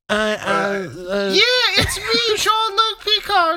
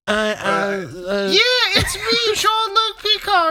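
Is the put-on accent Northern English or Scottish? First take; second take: Northern English; Northern English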